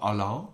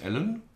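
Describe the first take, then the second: First: The name is said with a French pronunciation. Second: The name is said with a plain, non-French pronunciation.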